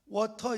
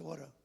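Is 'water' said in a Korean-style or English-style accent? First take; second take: Korean-style; English-style. First: It is said with Korean-style syllables and sounds. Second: It is said with English-style sounds and rhythm. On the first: The speaker calls it wrong. "워터 이렇게 하지 말고" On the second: The speaker calls it right. "water 이렇게"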